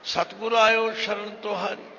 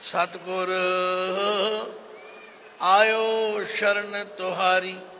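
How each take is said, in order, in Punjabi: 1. ਇਹ ਲਾਈਨ ਬਿਨਾਂ ਰੁਕੇ ਚੱਲਦੀ ਹੈ। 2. ਪਹਿਲੇ ਸ਼ਬਦ ਤੋਂ ਬਾਅਦ ਰੁਕਾਵਟ ਹੈ। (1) "ਸਤਿਗੁਰ ਆਇਓ ਸ਼ਰਨ ਤੁਹਾਰੀ ਨਹੀਂ" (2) "ਸਤਿਗੁਰ ਨੂੰ ਸੰਬੋਧਨ ਕਰਨਾ"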